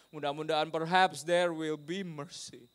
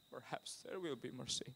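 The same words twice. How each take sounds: First: Slow, full-voiced English phrase; slow hopeful emphasis. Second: Slow, very soft repetition; hushed echo. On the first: Preacher voicing sailors' hope for mercy, slow and emphatic. Phrase said strong, then hushed. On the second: Preacher repeats hope for mercy, slow and hushed. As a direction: let it sink almost to a murmur. Same phrase repeated much softer. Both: Real, not acted.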